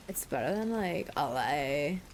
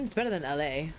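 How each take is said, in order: First: "like, L A" stretched out very slowly; mock drawn-out. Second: Said in the usual way. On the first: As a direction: drag out "L A" in a mock drawl. Mock repeat of the place name.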